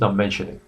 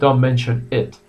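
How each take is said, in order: First: Mention and it run together as one unit. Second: Mention and it are said as separate words. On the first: The speaker calls it right. "Americans pronounce mention and it almost together" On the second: The speaker calls it wrong. "British pronounce it a little bit easier"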